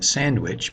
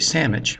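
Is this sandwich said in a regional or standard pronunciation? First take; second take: standard; regional. First: It is said in a standard everyday pronunciation. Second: It is said in a regional home pronunciation. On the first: "rather than sandwich" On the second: "I actually did say sandwich"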